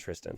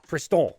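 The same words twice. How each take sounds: First: It is said with an English accent. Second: It is said with a French accent. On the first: The speaker calls it wrong. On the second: The speaker calls it right.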